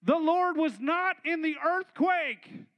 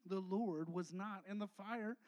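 First: Slow, loud and heavy; a slow booming proclamation; booming emphasis. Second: Slow, dropping the voice; a quiet, slow contrast to the boom; softer and lower. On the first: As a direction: proclaim each word, big and slow. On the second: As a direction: bring it down to a soft, slow line. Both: Acted. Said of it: "But it says".

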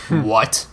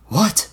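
First: Short, contained question with a falling end; puzzled inward thought. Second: High, startled what; mild shout with a rising end; shouted surprise. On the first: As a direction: think it to yourself, taken aback. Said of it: "Dunk thought". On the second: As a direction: blurt it in alarm, pitched high. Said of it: "Lara shouted". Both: A narrator's reading.

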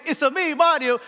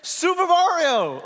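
First: High sing-song Italian; punchy cartoon Italian catchphrase; Mario's Italian accent. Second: High, drawn-out triumphant name call; big hammed-up reveal of the name; Mario announcing himself. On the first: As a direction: belt it out high in mock Italian. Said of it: "when we thought he was saying". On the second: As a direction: stretch out "Super Mario" high and slow. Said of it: "he's just saying".

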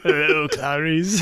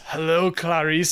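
First: Slow, creepy Hello, Clarice; lightly voiced movie villain; creepy Hannibal quote. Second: Slow, creepy Hello, Clarice; drawn-out menacing greeting; lightly voiced movie villain; creepy Hannibal quote. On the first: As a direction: drag it out like a horror villain. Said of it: "I was like". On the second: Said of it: "he goes".

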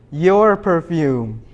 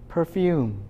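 First: "Your perfume" drawn out very slowly, "Your" hit louder; stress on YOUR. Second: Said in the usual way. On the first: Shown as a demonstration. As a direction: lean hard and slow on "Your".

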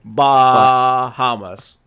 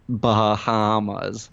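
First: Bahamas as a bleat, very slow, baaa-haaa-mas. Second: Bahamas stretched very slowly, Bah-ha-mas; drawn-out Bahamas. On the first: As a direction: bleat out Bahamas loudly, stretching ba and ha. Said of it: "if the ba and the ha should be long". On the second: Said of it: "which is hard to say". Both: Shown as a demonstration.

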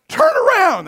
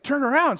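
First: High loud warning yell; urgent shout. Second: Said in the usual way. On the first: Retold or imitated. Friend racing past, high urgent warning shout.

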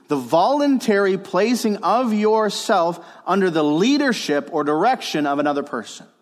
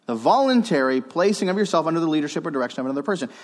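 First: Emphatic definition. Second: Quick run-through of a definition; brisk repeat. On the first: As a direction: proclaim the key definition, easing toward the end. Gives a definition to note down. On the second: Preacher repeating the definition for listeners, briskly. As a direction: rattle it off as a recap. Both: Real, not acted.

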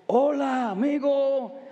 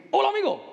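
First: Unhurried Mexican Spanish hola amigo, each word given room; Mexican Spanish greeting. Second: Hola amigo run together fast and high, Caribbean style; Caribbean Spanish greeting. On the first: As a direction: greet like a relaxed Mexican brother. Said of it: "My brothers Mexicans, they say, example". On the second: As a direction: rattle it off quickly like a Puerto Rican. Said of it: "or Cuba, Puerto Rico, say". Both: Retold or imitated.

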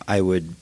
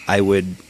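No difference in how they are said.

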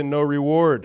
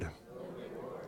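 First: Said in the usual way. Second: Whisper. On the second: Shown as a demonstration. Preacher echoing the congregation's call-back, whispered. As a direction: whisper "No reward." with no voice at all. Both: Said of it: "Everybody say".

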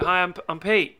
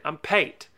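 First: Said in the usual way. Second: Imitated Aussie "Pate" for Pete; Australian accent. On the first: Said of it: "But he said". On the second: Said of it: "That's a good Aussie accent".

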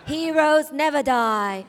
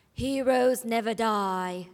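First: Slow, louder, laughing through it; slow emphatic hero line; corrected line. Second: Slow, steady delivery; low and slow hero line; lower pitch. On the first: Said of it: "There we go. That was better". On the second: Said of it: "I was at a higher pitch". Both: Shown as a demonstration.

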